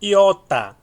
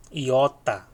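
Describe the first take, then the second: First: Iota said high and loud as /iota/, falling; loud model take. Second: Said in the usual way. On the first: Shown as a demonstration. Teacher introducing the letter Iota, high and loud. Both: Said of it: "eu tô falando bem devagar pra você".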